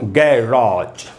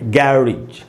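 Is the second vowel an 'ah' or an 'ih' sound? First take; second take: ah; ih. First: The second vowel is a long 'ah'. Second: The second vowel is a short 'ih'. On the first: "आ को भी लंबा खींच रहा है, तो बोलेंगे गै रा" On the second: "आर के बाद आई है यानी री बनेगा"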